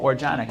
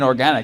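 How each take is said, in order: First: The word has a put-on foreign-sounding pronunciation. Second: The word has a plain standard English pronunciation. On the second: "I think you mean organic"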